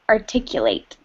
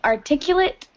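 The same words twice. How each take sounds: First: It is given the verb pronunciation. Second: It is given the adjective pronunciation. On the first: It names the action of expressing something clearly. "When it is the verb, you pronounce it articulate" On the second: It describes a person who speaks clearly. "you pronounce it that way because it's the adjective"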